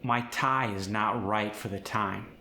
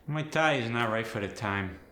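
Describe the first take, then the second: First: Said in the usual way. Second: Nasal, forward Fargo I sound; quicker Midwestern take, I pushed into the nose; Fargo accent. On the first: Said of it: "For instance". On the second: Shown as a demonstration. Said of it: "very far forward and nasally".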